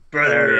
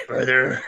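First: Louder wrestler growl; wrestling promo. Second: Wrestling promo. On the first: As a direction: bark it like Hulk Hogan. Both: Retold or imitated. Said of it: "a professional wrestler voice".

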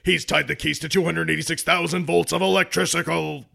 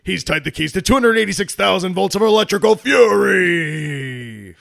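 First: Monster truck ad. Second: Loud, shouted announcer hype; monster truck ad. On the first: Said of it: "Let me try it again". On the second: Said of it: "that was hard for me to get out". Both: Acted.

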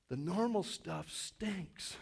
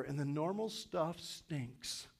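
First: "The normal stuff stinks" drawn out slowly, leaning on "normal"; slow and soft. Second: Slow emphasis. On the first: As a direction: linger on each word quietly. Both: Shown as a demonstration. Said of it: "Let me say that again".

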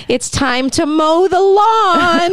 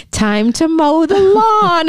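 First: Put-on high, slow, singsong little-boy voice; creepy child voice. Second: Put-on high, slow, sweetly menacing child; creepy child voice. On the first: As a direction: drag it out like a creepy child killer. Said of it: "he kinda talks like this". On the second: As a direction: stretch each word like a killer kid. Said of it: "tongue-in-cheek kind of committed".

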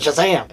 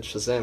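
First: SHAZAM exclaimed with force; emphatic magic word. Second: Said in the usual way. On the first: Retold or imitated. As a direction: say Shazam with real intent. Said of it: "he just said Shazam and it didn't work, but then he said Shazam!". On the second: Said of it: "he just said Shazam and it didn't work".

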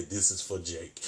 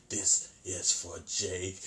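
First: Said in the usual way. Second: "This is for Jake" drawn out slowly as a threat; slow menacing Chucky. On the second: Retold or imitated. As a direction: let the doll linger on every word. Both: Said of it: "Chucky at this point just say".

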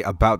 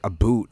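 First: Said in the usual way. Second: ABOUT said as "a boot"; mock Canadian vowel. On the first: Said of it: "they say, like, a boot". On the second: Shown as a demonstration. Showing how Canadians supposedly say about, "a boot" with oo. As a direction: say "a boot" with a long oo. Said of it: "this weird thing about our accents".

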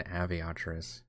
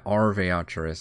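First: Aviatris with no R in the first syllable; "Aviatris" opening on "Av", no "Ar"; old mispronunciation. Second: Arveatris with the first R sounded; "Arveatris" opening on a clear "Ar"; corrected pronunciation. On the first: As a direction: say Aviatris softly, dropping the first R. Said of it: "Like I said, it was an". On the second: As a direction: sound out Arveatris slowly, "Ar" at the front. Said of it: "I think there's another R in there". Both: Shown as a demonstration.

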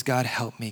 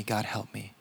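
First: Said in the usual way. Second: "God help me" dropped much softer, almost a breath; desperate prayer trailing off into near silence; faint plea. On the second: Acted. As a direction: let the second plea fade away. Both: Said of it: "This man says".

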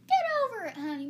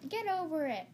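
First: Loud, high mock southern accent; hammed-up southern mom. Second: Higher, mock suburban dismissal; suburban type. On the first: Showing how southern people would say it, exaggerated southern accent. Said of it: "Or, like, in southern". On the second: Showing how suburban people would say it, mock dismissive. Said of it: "in, like, suburban areas". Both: Shown as a demonstration.

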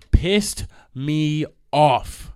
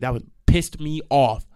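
First: Pissed me off, very slow, each word leaned on; pissed drawn long and hit hard; dragged-out emphasis. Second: Said in the usual way. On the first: Real, not acted. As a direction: stretch it out like you're seething. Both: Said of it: "repeats it slowly for weight".

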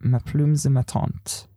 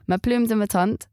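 First: "Ma plume de ma tante" repeated slowly, unsure; "Ma plume de ma tante" sounded out carefully. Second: "Ma plume de ma tante" said in French, nasal "tante"; "Ma plume de ma tante" with French sounds; French phrase. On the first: Retold or imitated. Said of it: "Guess what that means?". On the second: Shown as a demonstration. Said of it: "first phrases I remember being taught".

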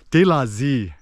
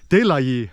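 First: "De la Z" with a buzzed z in Z; Saigon form. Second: "De la Yi" with a y sound in Yi; proper Hanoi form. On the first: Showing southern Saigon speech, "De la Z" ends "zee". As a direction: cite "De la Z", ending "zee". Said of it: "They'll say Z instead of Yi". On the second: Showing proper northern Vietnamese, "De la Yi" ends "yee". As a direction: cite "De la Yi", ending "yee". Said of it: "you're supposed to say". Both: Shown as a demonstration.

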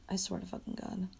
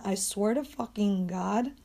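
First: Very soft, under the breath; muttered oath. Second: Slow, drawn-out exasperated swearing; exasperated oath. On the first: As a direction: repeat it quietly to yourself. Same oath repeated under breath. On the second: Venting about a slow dog, exasperated drawl. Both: Real, not acted.

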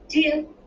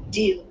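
First: High, loud, eager echo; bright-pitched child agreeing at once; little girl echoing. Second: Put-on young boy agreeing. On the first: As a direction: pipe up high like an excited girl. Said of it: "echoed Hannah". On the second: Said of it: "said Luke". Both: A narrator's reading.

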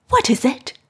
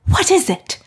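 First: Higher, breathless frightened question; gasped question. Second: Much higher and louder, panicked; panicked cry. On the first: Mrs Lennox hearing the servants wail, gasping. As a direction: ask in a startled gasp. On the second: Mrs Lennox hearing the servants wail, panicking. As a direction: shriek the question in rising panic. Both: A narrator's reading. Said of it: "Missus Lennox gasped".

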